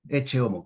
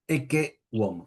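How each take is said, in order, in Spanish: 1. La primera palabra tiene un sonido ch en el medio. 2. La primera palabra tiene un sonido k en el medio. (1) "que algunos pronuncian eche" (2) "en latín siempre es K"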